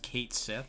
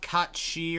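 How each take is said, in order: First: The name is pronounced in an English style. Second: The name is pronounced in a Gaelic style. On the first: "It's just Kate Sith" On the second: "the actual Irish pronounce like Gaelic pronunciation"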